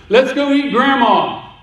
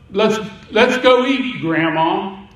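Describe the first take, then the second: First: "Let's go eat Grandma" run together with no pause, higher on "eat"; no comma, one run. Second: "Let's go eat, Grandma" with a clear pause before "Grandma"; a break after "eat", then "Grandma" as a call. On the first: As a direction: say "eat Grandma" in one breath without a break. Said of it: "let's drop the comma". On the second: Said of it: "comma, Grandma". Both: Shown as a demonstration.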